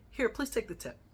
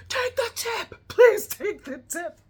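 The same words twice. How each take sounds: First: Said in the usual way. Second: Much higher, louder, slow insistent command; exasperated demand. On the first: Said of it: "she goes". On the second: Retold or imitated. Friend Janet ordering the driver to take the tip, loud exasperated shout. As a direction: bark it out to end the argument. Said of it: "whips her head around and she goes".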